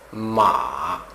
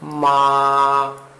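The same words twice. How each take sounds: First: The pitch dips low and then rises. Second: The pitch stays high and level throughout. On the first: It means mare. "esse é o terceiro tom" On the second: It means mother. "Isso é o primeiro tom. Você veja que ele mantém e continua"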